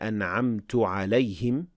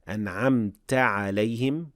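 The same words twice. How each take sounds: First: The first word ends in a u vowel. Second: The first word ends in an a vowel. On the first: The speaker calls it wrong. "with dhamma" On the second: The speaker calls it right. "with fatha"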